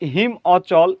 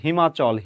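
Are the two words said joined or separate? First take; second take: separate; joined. First: The two words are said separately. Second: The two words merge into one quick word.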